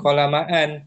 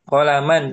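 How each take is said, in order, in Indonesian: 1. Vokal akhirnya dipanjangkan. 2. Vokal akhirnya pendek. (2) "Dia nggak dibaca alifnya"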